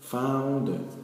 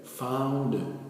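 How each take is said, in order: No difference in how they are said.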